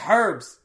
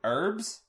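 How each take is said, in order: First: The word starts with an h sound. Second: The word starts without an h sound. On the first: The speaker calls it right. "Pronounce the H" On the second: The speaker calls it wrong. "that's the American pronunciation of herbs"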